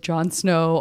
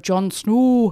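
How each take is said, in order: First: Said in the usual way. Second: Northern English "Snow" with a rounded, drawn-out vowel; louder mock Northern English accent on "Jon Snow". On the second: Shown as a demonstration. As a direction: put on a Game of Thrones Northern accent. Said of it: "doing what many people identify as".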